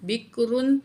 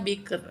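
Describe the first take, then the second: First: The word ends with an added -un sound. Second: The word ends on a bare r sound. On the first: The word is read on without a pause. "रा दो पेश रुन" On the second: The reader pauses at this word. "रा को साकिन पढ़ा जाएगा"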